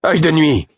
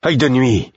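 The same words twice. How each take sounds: First: High, loud shout of Œil de Nuit; loud desperate cry of Œil de Nuit; shouting a name. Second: Urgent call of Œil de Nuit. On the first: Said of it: "criai-je". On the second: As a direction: cry out to the wolf. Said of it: "m'écriai-je". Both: A narrator's reading.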